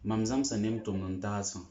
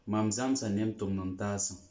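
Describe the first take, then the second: No difference in how they are said.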